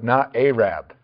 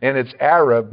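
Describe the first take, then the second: First: Arab with the first vowel stretched to ay; mock the long ay sound in Arab; Arab said as AY-rab, lightly. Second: Arab with a short a as in cat; Arab said as AIR-ub; correct Arab. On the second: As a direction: say Arab with a short first vowel. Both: Shown as a demonstration. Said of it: "lengthen the initial vowel".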